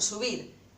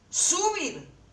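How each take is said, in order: First: The stress is on the last syllable. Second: The stress is on the first syllable. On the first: The speaker calls it right. "Dicen subir, quiere decir que esta es la sílaba tónica" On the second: The speaker calls it wrong. "Ustedes dicen subir. No, entonces esta no es la sílaba tónica"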